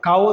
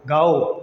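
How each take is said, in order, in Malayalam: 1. ഈ വാക്ക് ശബ്ദമില്ലാത്ത k ശബ്ദത്തിലാണ് തുടങ്ങുന്നത്. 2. ഈ വാക്ക് ശബ്ദമുള്ള g ശബ്ദത്തിലാണ് തുടങ്ങുന്നത്. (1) "കാവോ എന്നല്ല" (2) "ഗാ ഗ ഗാവോ"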